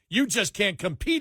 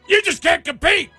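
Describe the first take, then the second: First: It is said with only mild anger. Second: It is said with much stronger anger. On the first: The speaker calls it wrong. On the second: The speaker calls it right.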